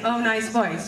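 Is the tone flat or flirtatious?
flat. It is said in a flat, plain tone.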